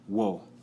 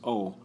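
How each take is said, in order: First: It begins with a w before the vowel. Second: It is a plain vowel with no w. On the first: "more of a better accent" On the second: "I was taught in school it was O"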